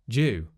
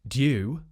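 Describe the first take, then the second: First: It begins with a j sound. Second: It begins with a d plus y sound.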